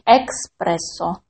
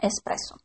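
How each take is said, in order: First: A k sound comes before the s. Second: No k sound comes before the s. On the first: The speaker calls it wrong. "в слове эспрессо нет буквы К. То есть это не экспрессо" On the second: The speaker calls it right. "а именно эспрессо"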